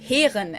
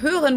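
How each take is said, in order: First: The vowel is an unrounded e sound. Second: The vowel is a rounded umlaut sound.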